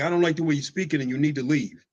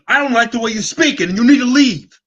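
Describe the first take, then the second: First: It is said in a firm, unraised voice. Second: It is said in a loud, raised voice. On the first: It only sounds like yelling to others. "They'll probably think you're yelling at them" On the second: The speaker is really yelling. "But if I'm yelling at them, it's like"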